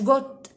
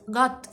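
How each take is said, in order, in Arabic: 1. الصائت هو صوت 'oh' مدوّر. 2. الصائت هو صوت 'ah' مفتوح. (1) "مش جوت" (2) "اسمها جيت جات جات"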